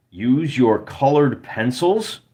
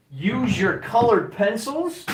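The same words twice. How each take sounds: First: Said in the usual way. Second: Much higher, slower teasing repeat of the line; high mock voice. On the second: Streamer mockingly echoing a viewer's tip in a high voice. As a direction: parrot the advice back in a high, slowed put-on voice.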